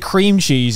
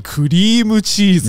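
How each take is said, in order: First: It is said with an English pronunciation. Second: It is said with a Japanese-style pronunciation. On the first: The speaker calls it wrong. "you don't say cream cheese" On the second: The speaker calls it right. "you say kurimu cheese"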